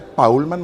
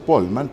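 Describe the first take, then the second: First: The first vowel is an 'ow' sound. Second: The first vowel is a plain 'o' sound. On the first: The speaker calls it right. "Polman se dice Paulman" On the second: The speaker calls it wrong. "Yo siempre he dicho Polman, pero ella me corrigió"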